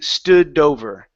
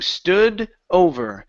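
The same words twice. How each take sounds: First: The D runs straight into the next word. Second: A pause separates the two words. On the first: The speaker calls it right. "connect the D to the word over" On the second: The speaker calls it wrong. "you're pausing in between there"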